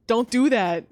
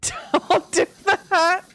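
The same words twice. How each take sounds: First: Said in the usual way. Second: Laughing. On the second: Real, not acted.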